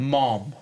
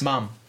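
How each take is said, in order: First: The word is said with an American vowel. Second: The word is said with a British vowel. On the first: "Say it like an American" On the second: "We say it with the U"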